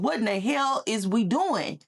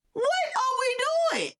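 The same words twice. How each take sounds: First: Said in the usual way. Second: Shouted high and slow, cracking with disbelief; exasperated cry. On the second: Real, not acted. Vlogger crying out at her audience in a high, slow, exasperated shout. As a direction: wail it out at the absurdity. Exasperated rant about money.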